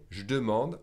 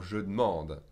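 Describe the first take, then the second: First: "Je demande" said as "j'demande"; E dropped from je. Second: "je demande" said as "je d'mande"; E dropped from demande. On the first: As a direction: open "Je demande" on a zh joined to d. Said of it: "skip the E from the je". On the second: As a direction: keep je whole, join d to m in "je demande". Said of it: "or the E from demande". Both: Shown as a demonstration.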